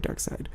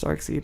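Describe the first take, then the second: First: The second syllable sounds like 'side'. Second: The second syllable sounds like 'seed'. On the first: This is the actual pronunciation of the name. The speaker calls it right. "it's actually Darkseid" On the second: This is how the speaker first learned the name. The speaker calls it wrong. "I learned it as Darkseid"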